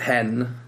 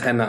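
First: The name is said as one syllable. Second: The name is said as two syllables. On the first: The speaker calls it wrong. "I've heard it hen" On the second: The speaker calls it right. "so it is henna"

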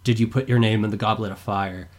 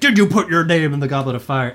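First: The question is said calmly in a quiet voice. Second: The question is screamed loudly and urgently. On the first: "calmly turned to Harry and said like in a quiet voice" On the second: "rushes over and screams like"

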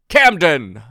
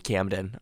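First: It is said in an exaggerated character voice. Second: It is said in his normal speaking voice.

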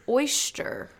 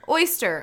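First: The word is said to rhyme with moisture. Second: The word is said the standard way. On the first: The speaker calls it wrong. "But they say oyster. Like moisture" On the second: The speaker calls it right. "Okay, good"

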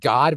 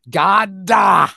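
First: The word is short and ends cleanly. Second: The word is drawn out with an added vowel.

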